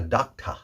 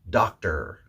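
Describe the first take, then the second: First: The final R is weak or dropped. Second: The final R is a strong er sound. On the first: The speaker calls it wrong. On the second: The speaker calls it right.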